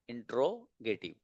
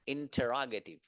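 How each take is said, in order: First: The word begins with 'intro'. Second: The word begins with 'intera'. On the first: The speaker calls it wrong. "इंट्रो भी मत पढ़िएगा इसको" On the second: The speaker calls it right. "इसको पढ़ेंगे आप इंटेरागेटिव"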